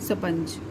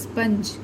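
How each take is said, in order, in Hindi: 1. यह 's' से शुरू होता है और उसके बाद छोटा 'a' आता है। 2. यह 'sp' से पहले 'i' स्वर से शुरू होता है। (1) "गलती से आप क्या पढ़ लोगे" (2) "ई का उच्चारण हो रहा है शुरुआत में ना"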